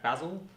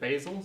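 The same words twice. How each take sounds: First: The word is said with an Australian pronunciation. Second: The word is said with an American pronunciation. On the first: "in Australia we pronounce that basil" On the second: "In the U S, for some reason, they pronounce it basil"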